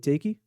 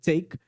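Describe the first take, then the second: First: The stressed syllable sounds weak. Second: The stressed syllable sounds forceful. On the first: The speaker calls it wrong. "do que quando eu falei take" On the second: The speaker calls it right. "a tônica ficou muito mais forte, muito mais presente quando eu falei take"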